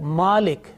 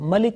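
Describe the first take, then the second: First: The first vowel is drawn out long. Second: The first vowel is short.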